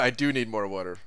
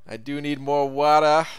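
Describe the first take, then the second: First: It is said in his ordinary voice. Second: It is said in a put-on sleazy Boston voice.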